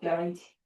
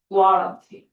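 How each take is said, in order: First: The u is silent, as in natural speech. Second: Every letter is sounded, including the u. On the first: It is the real pronunciation. "내 발음은 guarantee" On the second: It helps to remember the spelling. "구아란티 이렇게 외우면 되지"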